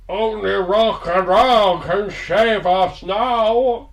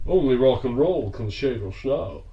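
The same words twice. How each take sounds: First: Bad Sean Connery with Norwegian accent; slow, loud, botched Connery in Norwegian accent. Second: Sean Connery impression. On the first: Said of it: "in very much the style of a Norwegian Ian Crankin". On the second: Shown as a demonstration. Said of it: "Of course I can do it".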